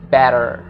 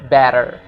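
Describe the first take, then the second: First: The final R is pronounced strongly. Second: The final R is pronounced strongly.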